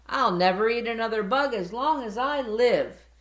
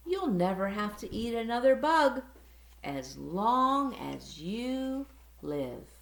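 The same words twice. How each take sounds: First: Loud, high happy cheer. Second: Gentle promise. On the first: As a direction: cheer it with a full belly. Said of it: "cheered Stella Luna". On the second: Mother bat promises gently. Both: Acted.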